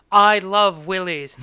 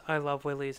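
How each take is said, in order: First: Loud, slow, emphatic repeat; loud mock declaration. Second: Quiet mock confession. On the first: He answers her "What?", loudly and slowly imitated. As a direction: proclaim it loudly, drawing it out. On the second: He tells her what he loves, quietly imitated. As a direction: say it softly, as an imitated admission. First saying, before she asks what.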